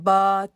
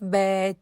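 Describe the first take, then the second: First: The vowel is a flat, open 'aa' sound. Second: The vowel is fronted, sounding like 'ai'. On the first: The speaker calls it right. "बिल्कुल सीधी सीधी वाली आवाज़ है" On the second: The speaker calls it wrong. "ये यूं नहीं करना"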